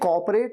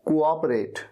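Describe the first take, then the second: First: The start is squeezed into one syllable, 'cop'. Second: The start has two separate syllables, 'co-op'. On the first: The speaker calls it wrong. "ये कॉपरेट नहीं है" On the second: The speaker calls it right. "ये क्या है, कोऑपरेट"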